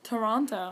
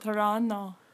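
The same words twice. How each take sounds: First: The T's are fully pronounced. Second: The second T is dropped, local style.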